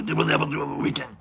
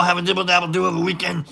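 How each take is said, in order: First: Low, soft, fast muppet voice; a quick hushed go at a monster voice; Cookie Monster. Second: Said in the usual way. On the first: Retold or imitated. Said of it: "It's Cookie Monster". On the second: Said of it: "I didn't think I would be able to do that".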